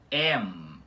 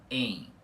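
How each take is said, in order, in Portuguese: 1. A vogal termina com os lábios se fechando no M. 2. A vogal é nasalizada, sem fechamento dos lábios. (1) "com esse M final puxado" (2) "e não em"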